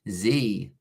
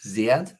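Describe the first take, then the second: First: The letter is said the American way, zee. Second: The letter is said the British way, zed.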